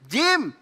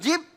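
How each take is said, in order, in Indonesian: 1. Kata ini berakhir dengan bunyi m. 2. Kata ini berakhir dengan bunyi b. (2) "kok jib?"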